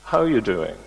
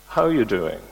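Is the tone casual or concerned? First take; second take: concerned; concerned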